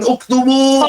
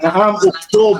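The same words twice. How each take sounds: First: UKTUBU pitched high as an instruction; command intonation. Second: "Naam, uktub" as a raised-pitch confirmation; confirming intonation. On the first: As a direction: demonstrate the order "uktubu", high and drawn out. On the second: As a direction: demonstrate a teacher's yes: "Naam, uktub". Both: Shown as a demonstration. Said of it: "gitu kan intonasinya".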